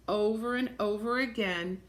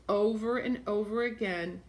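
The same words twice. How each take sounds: The two takes are said the same way.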